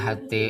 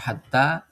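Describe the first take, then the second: First: The final vowel leans toward an e sound. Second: The final vowel is a plain open a. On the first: The speaker calls it wrong. "tidak dibaca hate" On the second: The speaker calls it right. "Hatta tetap dibaca hatta"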